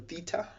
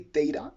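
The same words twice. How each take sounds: First: It is said in a non-American accent. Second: It is said in an American accent.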